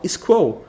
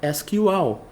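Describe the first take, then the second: First: It is said as a single squirrel-like word. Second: Each letter is spelled out with English letter names. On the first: "de zoeira ou de brincadeira... quase para esquilo" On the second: "No inglês técnico... a pronúncia foi feita de forma correta"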